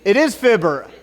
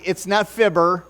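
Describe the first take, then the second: First: Fibber with short i as in fib. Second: फिबर को गलत ढंग से कहना; it's not fibber, mispronounced. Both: Shown as a demonstration. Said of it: "I mispronounced it this morning".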